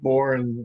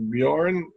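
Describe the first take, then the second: First: The J is dropped, leaving born. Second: The J is neither H nor dropped. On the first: The speaker calls it wrong. "or sometimes silent, like just born" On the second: The speaker calls it right. "but it's properly pronounced Bjorn"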